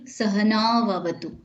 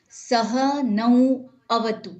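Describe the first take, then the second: First: The words are joined smoothly into one flow. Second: The words are said separately, not joined. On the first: The speaker calls it right. "fusionner des mots d'une manière fluide" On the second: The speaker calls it wrong. "c'est beaucoup plus compliqué"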